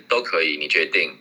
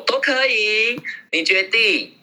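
First: 都可以 said flat and low, sounding moody; flat, low answer. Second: Much higher, light and easy; sweet, breezy answer to the partner; relaxed and cheerful. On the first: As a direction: mutter it without lift, as if upset. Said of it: "第二个，他们会觉得". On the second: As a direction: toss off 都可以 brightly, carefree. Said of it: "放松的讲话". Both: Shown as a demonstration.

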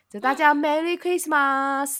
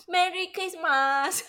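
First: Slow, heavy Japanese-style Merry Christmas; Merry Christmas 的马斯发得很重; Japanese-accented English. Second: Put-on Japanese-accented English. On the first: Retold or imitated. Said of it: "马斯就发的音发的很重". (日本腔的英文) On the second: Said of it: "我们两个念起来也很gay bye".

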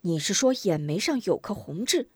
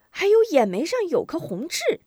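First: Intent, questioning echo at normal pitch; startled grandmother. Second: Put-on high-pitched child voice; excited boy. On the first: Acted. Grandmother checks the boy's memory, startled question. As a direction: check the detail with an older woman's surprise. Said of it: "康婆婆一惊". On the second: Boy remembers a mole for grandmother, high excited voice. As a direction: pipe it up as a sudden memory.

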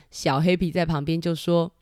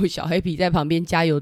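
First: Said in the usual way. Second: Laughing through the words. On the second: Real, not acted. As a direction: chuckle as you read. Laughing while reading the page. (笑着说)

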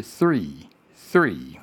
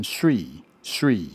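First: "three" slowly, with a true th before r; careful dental th gliding into r in "three"; correct TH-R. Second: "three" said as "sree", s replacing th; "three" with tongue behind the teeth, like "sree"; wrong TH-R. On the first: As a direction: demonstrate "three" with tongue between the teeth, then r. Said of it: "正确的是". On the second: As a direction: demonstrate the common mistake, "three" starting on s. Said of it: "很多人会念错". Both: Shown as a demonstration.

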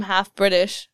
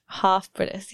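First: Said in the usual way. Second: British "half" with a long broad ah; British accent. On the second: Shown as a demonstration. Host trying to sound half British to a British guest, British accent. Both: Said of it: "I lost it again".

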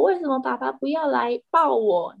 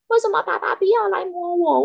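First: Milder pleading cat voice, a bit higher; a lighter whiny cat. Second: Whiny cat. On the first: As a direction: keep the cat's plea but ease off. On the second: Cat begs for its owner's petting in a high whiny voice. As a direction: whine it up high like a needy pet. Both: Retold or imitated. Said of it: "它就说".

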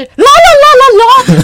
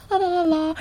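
First: Much louder, higher and slower sung la la; blasting la la. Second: Soft sung la la la, blending in; everyone's soft la la. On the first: Mocking a classmate who sings far too loud. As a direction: belt it out and drown everyone. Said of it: "唱得非常的大声". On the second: Demoing how the class sings it, softly. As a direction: sing it softly like the rest of the class. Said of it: "大家声音可能是". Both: Shown as a demonstration.

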